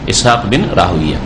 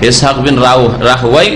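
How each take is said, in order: First: The name ends in 'uya', not rhyming with Sibawayh. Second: The name ends in 'wayh', rhyming with Sibawayh. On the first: This is the form hadith scholars use. "মুহাদ্দিসিনে কেরামরা রাহউইয়া পড়েছেন" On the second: This is the form Arabic linguists use. "যেমন সিবওয়াই, যারা আরবি ভাষাবিদ তারা বলছে যে রাহওয়াই পড়বো আমরা"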